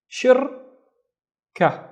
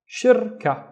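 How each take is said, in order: First: "Shirka" higher, in two separate parts, shir, ka; long gap between the syllables of "Shirka"; split into syllables. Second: Said in the usual way. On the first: Shown as a demonstration. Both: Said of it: "let's split this into two syllables".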